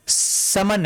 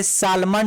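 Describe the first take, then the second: First: "समन" said as sa-man, no L; correct silent L. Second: "सालमन" said as sal-man with the L heard; wrongly sounded L. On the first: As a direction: drop the L entirely in "समन". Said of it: "ये सालमन नहीं है". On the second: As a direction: voice the silent L in "सालमन". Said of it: "नहीं है". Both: Shown as a demonstration.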